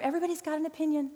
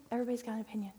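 First: Said in the usual way. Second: Repeated much softer, dropping away; quiet repeat. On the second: Shown as a demonstration. Speaker to the women's ministry on online opinions, said softly. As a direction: let the line fall to almost nothing.

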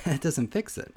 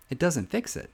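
Both takes have the same delivery.

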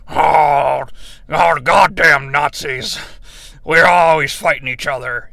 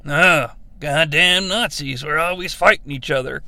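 First: Gruff aged Harrison Ford voice; old man voice. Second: Lightly younger Harrison Ford voice; the same line, slightly younger. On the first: Retold or imitated. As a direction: play the line like an older man. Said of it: "young Harrison Ford being like". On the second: Shown as a demonstration. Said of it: "No, it needs to be".

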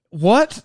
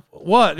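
First: Lightly voiced "What?" with rising pitch; a short retold query, tipping upward; questioning friend. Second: Lightly acted "What?" with falling pitch; puzzled reply. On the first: Friend looks at him after the wife says no, questioning. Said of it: "Leighton looks at me and he's like". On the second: Answering the friend's look with the same word, puzzled. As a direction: echo it back, dropping at the end. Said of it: "And I'm like".

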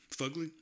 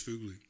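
First: Fugly said FUG-lee, rising high; Fugly as a lifted question, uh vowel; short-u pronunciation, questioning. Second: Fugly said FOOG-lee; Fugly with the oo of "food"; long-u pronunciation. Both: Shown as a demonstration. Unsure which pronunciation he prefers.

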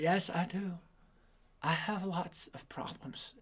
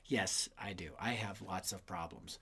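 First: Put-on softly, a little slower, ashamed kid; boy quietly admitting to his grandfather, sheepish; sheepish admission. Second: Hushed whisper to the audience; self-mocking whispered confession; whispered aside. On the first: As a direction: mumble the confession to grandpa. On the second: Speaker repeats as aside.

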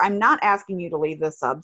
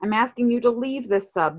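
First: "not" picked out as a correction; stress on NOT. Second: Said in the usual way. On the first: Retold or imitated. Reader correcting her misreading of the post, stress on "not". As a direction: lean on the word "not".

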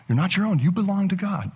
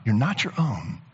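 First: Raised pitch, each word pressed home; emphatic preaching. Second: Said in the usual way. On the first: Acted. Preacher urging the congregation, high emphatic. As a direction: preach it with a higher lift.

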